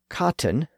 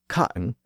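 First: A clear T is pronounced in the middle. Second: A glottal stop replaces the middle T. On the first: The speaker calls it right. "which should be pronounced with the T sound" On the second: The speaker calls it wrong. "with the T left out"

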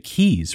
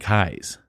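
First: The name does not rhyme with 'Kai'. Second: The name rhymes with 'Kai'. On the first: The speaker calls it wrong. "a lot of people would say Keys, right? ... But it is not" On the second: The speaker calls it right. "the actual person's last name would have been Keyes. ... Like Cobra Kai"

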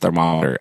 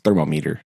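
First: The stress falls on the mom syllable. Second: The stress falls heavily on the meter part. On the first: The speaker calls it right. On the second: The speaker calls it wrong.

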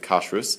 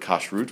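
First: The word ends with an s sound. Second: The word ends with a t sound.

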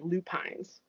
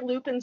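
First: It is said the Minnesota way, ending 'pines'. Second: It is said the Upper Peninsula way, ending 'pins'.

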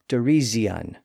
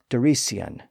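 First: The middle consonant is a buzzing z sound. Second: The middle consonant is a hissing s sound. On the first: This is an intermediate stage of the change. "it became a Z sound" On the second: This is the original older pronunciation. "pronounced like they were spelled"

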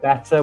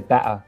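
First: The T in the middle is clearly pronounced. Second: The T in the middle is cut.

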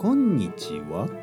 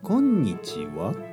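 First: It is said with a Kansai pitch accent. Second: It is said with a Kansai pitch accent.

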